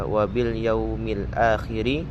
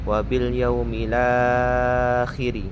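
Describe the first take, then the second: First: The glottal stop after the article is kept. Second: The glottal stop drops; the 'la' vowel is lengthened. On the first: "Dari awalnya dibaca" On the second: "berubah menjadi ... La-nya itu dibaca panjang tiga alif"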